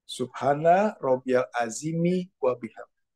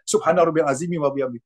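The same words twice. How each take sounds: First: The phrase is recited slowly and calmly. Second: The phrase is recited quickly and hurriedly. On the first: The words are said with respect and their meaning comes through. The speaker calls it right. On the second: The words are rushed and their meaning is lost. The speaker calls it wrong.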